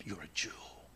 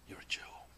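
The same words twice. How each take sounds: First: Softer, lower, a gentle assurance; soft tender words. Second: A tender whisper, voiceless and intimate; whispered tenderly. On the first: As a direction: say it like a loving secret. God tenderly to his people. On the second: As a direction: whisper it close to the ear. Repeat of the tender line. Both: Acted.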